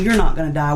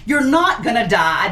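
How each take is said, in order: First: It sounds warm, soothing and reassuring. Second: It sounds curt, dismissive and snotty. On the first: The speaker wants to comfort the frightened person. The speaker calls it right. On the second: The speaker thinks the frightened person is overreacting. The speaker calls it wrong.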